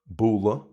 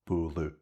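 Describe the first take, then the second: First: The word ends in a neutral schwa vowel. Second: The word ends in a fronted u vowel. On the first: This is the Munster way of saying it. "as you can just hear in Munster, A D H at the end is pronounced as uh, as a schwa" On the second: This is the Ulster way of saying it. "it's more of a fronted U sound"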